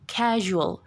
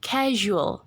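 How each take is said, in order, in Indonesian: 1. Konsonan tengahnya bunyi zh yang lembut. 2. Konsonan tengahnya bunyi zh yang lembut.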